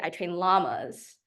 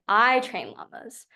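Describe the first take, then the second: First: The stress is on "llamas". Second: The stress is on "I".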